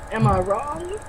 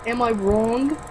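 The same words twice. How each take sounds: First: Soft slow Walken question; lightly voiced Walken, drawn out; Christopher Walken. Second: Soft nasal New Jersey take; mild New Jersey accent, rising. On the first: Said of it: "trying to do Christopher Walken". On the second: Acted. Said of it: "my New Jerseyan voice".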